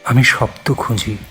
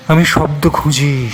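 First: "আমি শব্দ খুঁজি" level and restrained; restrained first statement. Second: "আমি শব্দ খুঁজি" pitched up, emphatic, then falling; insistent repetition. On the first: Poet searching for words, restrained "আমি শব্দ খুঁজি". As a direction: say আমি শব্দ খুঁজি evenly, holding back. First take of repeated line. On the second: Poet searching for words, insistent higher "আমি শব্দ খুঁজি". Line repeated with more force. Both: Acted.

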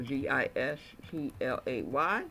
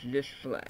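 First: D I S P L A Y, each letter named separately; spelled out. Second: Said in the usual way. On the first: Shown as a demonstration. Teacher spelling the caption for students, letter by letter. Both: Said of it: "So D I S P L A Y".

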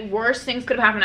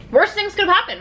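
First: Said in the usual way. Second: Exclaiming. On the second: Real, not acted. Exclaims then repeats.

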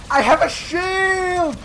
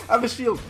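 First: High, slow drawn-out shout. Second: Said in the usual way. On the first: Real, not acted. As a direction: shout it out, stretched. Repeated, louder, slow.

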